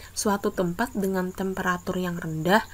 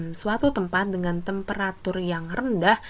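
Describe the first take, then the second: No difference in how they are said.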